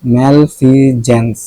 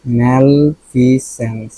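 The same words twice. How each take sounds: First: ম্যালফিজেন্স slowly, with a "j" in "jens"; revised pronunciation. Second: ম্যালফিসেন্স slowly, with an "s" in "sens"; first-guess pronunciation. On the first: Teacher modelling the revised word, ম্যালফিজেন্স drawn out with "j". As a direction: sound out ম্যালফিজেন্স as "mal-fi-JENS". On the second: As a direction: sound out ম্যালফিসেন্স as "mal-fi-SENS". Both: Shown as a demonstration. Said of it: "উচ্চারণটা কি?".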